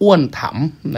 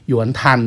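First: The name is said with a Thai accent. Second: The name is said with a Chinese accent. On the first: "อันนี้สำเนียงไทยนะครับ" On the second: "สำเนียงจีนจริงๆเรียกว่า"

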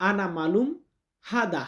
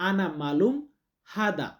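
The two takes are said the same way.

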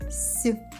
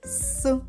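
First: The s sound is soft, palatalized. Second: The s sound is hard, not palatalized. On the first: "м'який «сі»" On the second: "Твердий «с»"

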